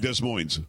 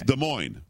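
First: The final S sound is pronounced. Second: The final S sound is silent. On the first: The speaker calls it wrong. "stop saying Des Moines" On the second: The speaker calls it right. "It's Des Moines"

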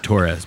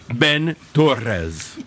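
First: The R sound is plain, not rolled. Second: The R sound is rolled. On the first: "just a straight Torres" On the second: "I had to roll my R's for that"

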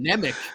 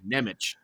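First: The name ends with a hard k sound. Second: The name ends with a ch sound. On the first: The speaker calls it wrong. "I think I was saying Nemic" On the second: The speaker calls it right. "He has an H at the end"

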